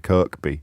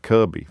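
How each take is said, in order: First: The middle k sound is clearly pronounced. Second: The middle k sound is left out.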